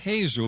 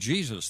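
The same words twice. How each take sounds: First: The name is said with a Spanish pronunciation. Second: The name is said with an English pronunciation. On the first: This is how Spanish speakers say the name. "they pronounce it Jesus" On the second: This is the familiar name the speakers actually mean. "that's really Jesus they're saying"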